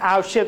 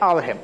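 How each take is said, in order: First: The last consonant is an sh sound. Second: The last consonant is an h sound. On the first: This is the standard pronunciation. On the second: This is the dialect pronunciation.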